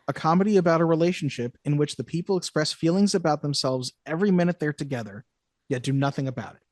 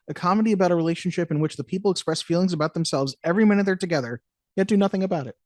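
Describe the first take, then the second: First: It is read slowly. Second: It is read at a normal speed.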